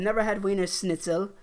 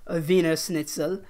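First: Said in the usual way. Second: Wiener said with a German v, vee-ner; German pronunciation. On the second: Shown as a demonstration. Correcting himself on the chain's name, German Wiener.

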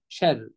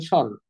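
First: شر as "sherr-i", thin r with kasra; light ر. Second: شر as dark "sharr"; heavy ر. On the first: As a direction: lighten the a and ر of شر, ending in i. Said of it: "ولكن نقولها إيه". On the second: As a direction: thicken the ر in شر with a back a. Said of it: "ما ينفعش نقول شر". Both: Shown as a demonstration.

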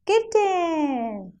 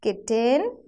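First: High "kitten" gliding down; kitten, long falling model for children; kitten drawn out, falling. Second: Put-on kitten, rising for children to repeat; kitten with rising tune. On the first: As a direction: stretch the end of kitten downward. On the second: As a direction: prompt "kitten" with a lift at the end. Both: Shown as a demonstration. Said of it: "Now say it with me".

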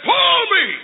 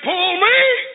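First: High, commanding cry falling at the end; bossy sister. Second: High demand swooping upward at the end; insistent sister. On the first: Sister in wagon ordering brother, bossy. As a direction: order him sharply in a high voice. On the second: Sister demanding once more of balking brother, insistent. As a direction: repeat the order with a rising, insistent lilt. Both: Acted.

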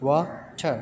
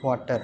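First: "water" split into two separate beats; syllable by syllable. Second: Said in the usual way. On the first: Shown as a demonstration. Teacher showing pupils the syllables, "water" broken in two. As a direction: say "water" with a gap between wa and ter. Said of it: "there are two syllables in water". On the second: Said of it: "Syllable is a unit of pronunciation".

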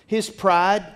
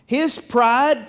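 First: Said in the usual way. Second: His pride said again, higher and louder, punching pride; His pride driven home, louder and higher; repeated with emphasis. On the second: Shown as a demonstration. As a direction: hammer the words His pride a second time, louder.

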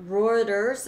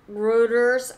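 First: "Reuters" with an "oy" diphthong, "ROY-ters"; others' pronunciation. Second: "Reuters" with a long back vowel, like "ROO-ters"; alternative pronunciation. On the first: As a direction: say "Reuters" to rhyme with "loiters". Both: Shown as a demonstration. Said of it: "as some people call it".

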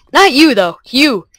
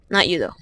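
First: Louder and higher, punching not; emphatic repeat, louder and higher. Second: Said in the usual way. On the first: Shown as a demonstration. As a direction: declare it loudly.

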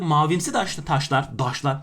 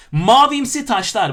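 First: Ankara-accented slip from taş to "daşlar". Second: "Mavimsi taşlar" loud, high and slow, with a careful t; over-polite, carefully enunciated "taşlar", drawn out; refined pronunciation. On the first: Real, not acted. Teacher's inner Ankara local slips out, Ankara accent. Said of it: "İçimdeki Ankaralı'yı bir anda arkadaşlar maalesef dışa vurdum". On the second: Shown as a demonstration. Teacher suddenly turns polite after dialect slip, refined careful "taşlar". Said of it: "Bakın kibarlaştım bir anda".

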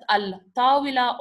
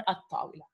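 First: "al-tawila" with the L sounded; L pronounced. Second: "at-tawila" with the L turned into T; L assimilated. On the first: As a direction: say "al-tawila", keeping the L before the T. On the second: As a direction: say "at-tawila", no L, doubled T. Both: Shown as a demonstration. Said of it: "how do we pronounce".

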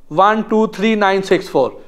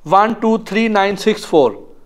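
The two takes are said the same way.

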